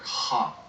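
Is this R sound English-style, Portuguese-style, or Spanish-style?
Portuguese-style. The R sounds like a breathy H. "which in Portuguese uh, sounds like like an H for you, like ha"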